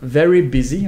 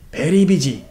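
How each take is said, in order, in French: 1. Prononcé avec un accent anglais natif. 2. Prononcé avec un accent coréen, le V sonnant comme un B. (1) "en anglais" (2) "on va le dire very busy"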